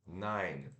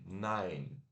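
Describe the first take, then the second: First: It is said with English pronunciation. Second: It is said with English pronunciation.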